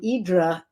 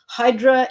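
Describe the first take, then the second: First: The name has a Greek pronunciation. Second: The name has an English pronunciation. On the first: This is how people who live there say it. "which is the Greek pronunciation" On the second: This is how people who don't live there say it. "if you don't live there"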